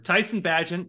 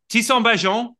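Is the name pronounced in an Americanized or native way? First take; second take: Americanized; native. First: The name has an Americanized pronunciation. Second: The name has its original, non-American pronunciation.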